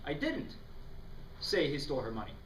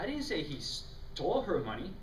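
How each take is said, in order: First: The stress falls on the word didn't. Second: The stress falls on the word stole.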